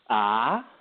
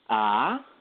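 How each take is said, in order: No difference in how they are said.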